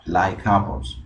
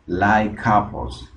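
First: Said in the usual way. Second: "Like apples" slowed, joined as laikapos; slow linking demo; linked pronunciation. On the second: Shown as a demonstration. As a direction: slide the k straight into apples. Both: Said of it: "Noten acá cómo suena".

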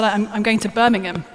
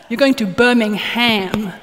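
First: "Birmingham" said the British way, "Birming-um" with no h; "Birmingham" with the ham swallowed to "um". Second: Slow "Birmingham" with the full "ham" sounded out; "Birmingham" said slowly, through a laugh, the American way, "Birming-HAM"; laughing correction, "Birmingham" with a clear "ham". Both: Retold or imitated. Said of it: "No, no, no, no, no".

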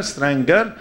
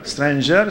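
First: "stranger" with hard G, rising end. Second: "stranger" with a J sound, rising end; soft G. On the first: Speaker showing the G E R confusion, "stranger" with hard G. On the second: Speaker showing the G E R confusion, "stranger" with soft G. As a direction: say "stranger" as strain-jer. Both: Shown as a demonstration. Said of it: "every G E R is".

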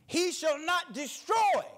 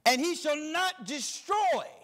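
First: Slow, high shout of "destroy"; "destroy" shouted slow and high from the pulpit; preached shout. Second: "destroy" drawn out slow and weighty; measured scripture read landing on "destroy"; stress on destroy. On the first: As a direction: bring the house down on "destroy". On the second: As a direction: lean slowly on "destroy". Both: Shown as a demonstration. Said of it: "now I want you to underline this word, destroy".

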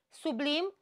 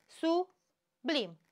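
First: Said in the usual way. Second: Sublim said as su-blim, keeping B and L together; split into syllables. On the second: Shown as a demonstration. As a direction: sound out Sublim in two beats. (despărțit în silabe: su-blim) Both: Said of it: "B și L nu se despart".

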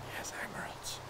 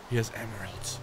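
First: Breathless hushed whisper; awed whisper. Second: Said in the usual way. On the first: Real, not acted. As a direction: whisper it like a secret treasure. Whispered repeat of discovery.

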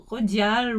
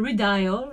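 First: Redial said the French way; French pronunciation. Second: Redial said the English way; English pronunciation. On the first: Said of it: "je sais pas comment ça se prononce". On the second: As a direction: say Redial as "ree-dial". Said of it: "je prononce toujours les trucs à l'anglaise". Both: Shown as a demonstration.

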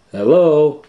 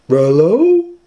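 First: High, loud call into the house. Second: Very high, loud dog-voiced call; Scooby-Doo voice. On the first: Acted. Shaggy calls into the empty house, high and loud. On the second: Scooby calls into the house, very high dog voice. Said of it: "Scooby said".

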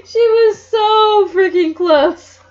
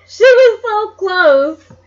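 First: High, loud, slow shout; exasperated shout. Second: High, loud, slow crying wail; frustrated wail. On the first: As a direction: yell it out in frustration. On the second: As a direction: wail it in mock despair. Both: Real, not acted. Reader despairs at plot twist.

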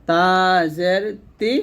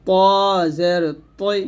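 First: তা জের তি with light dental t; clean, thin তি at the teeth. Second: ত জের তৈ keeping the dark o colour in তৈ; heavy emphatic t on ত and তৈ; thick heavy toi. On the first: Teacher repeating the contrast, thin ti. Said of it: "পাতলা করে". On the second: Teacher repeating the contrast, thick t. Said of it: "তর একটা ভাব রেখে". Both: Shown as a demonstration.

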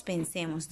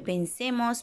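First: Lower, much softer repeat; soft echo. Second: Said in the usual way. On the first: Acted. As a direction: let it fade like an echo.

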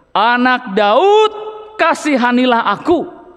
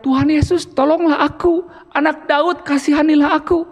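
First: Crying out. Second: Higher, pleading mock cry for help. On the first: Acted. Preacher reads the blind beggar's plea to Jesus, slow and pleading. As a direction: read the blind man's plea slowly, pleading. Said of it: "semakin keras ia berseru". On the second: Preacher acts the blind man calling to Jesus, higher mock cry. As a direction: call out to Jesus like a blind beggar, pitched up. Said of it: "Kalau berteriak".

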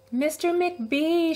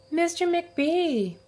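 First: High, slow call for help; raised calling voice. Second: High, slow drawn-out call; raised, drawn-out call; calling again. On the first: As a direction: call down the hall, drawn out. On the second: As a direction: call out for help once more. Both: A narrator's reading. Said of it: "she called after a minute".

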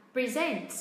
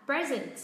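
First: "present" as pri-ZENT, second syllable strong; stress on second syllable. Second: "present" as PRE-zent, first syllable strong, then falling; stress on first syllable. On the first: Teacher offers learners the first option, second-syllable stress on "present". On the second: Teacher offers learners the other option, first-syllable stress on "present". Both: Shown as a demonstration. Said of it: "Đọc thế nào hả các bạn".

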